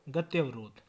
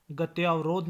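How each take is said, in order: First: Said in the usual way. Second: गत्यावरोध with long tyaa; mispronunciation. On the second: Shown as a demonstration. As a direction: open गत्यावरोध to gat-YAA-varodh. (गत्यावरोध, लंबा त्या) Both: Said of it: "नहीं".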